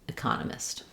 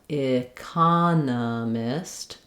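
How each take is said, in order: First: It is said quickly at normal speed. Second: It is said slowly, syllable by syllable. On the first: "and then speed up" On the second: "go slowly, syllable by syllable"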